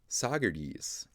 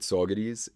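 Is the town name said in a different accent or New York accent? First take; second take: different; New York. First: It is said in a non-New York accent. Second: It is said in a thick New York accent. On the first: The speaker calls it wrong. "if you have an any other accent, which is the wrong accent" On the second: The speaker calls it right. "if you have a thick New York accent, I'm pretty sure you say it that way"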